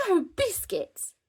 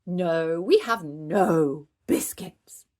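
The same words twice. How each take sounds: First: High-pitched horrified cry; aghast, pitched way up; mock fright. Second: Slow, loud puppet refusal; drawn-out, emphatic denial; grave refusal. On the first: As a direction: exclaim in playful puppet horror. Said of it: "making Owlie jump in fright". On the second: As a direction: stretch out a solemn no. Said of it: "shaking Monkey's head". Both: A narrator's reading.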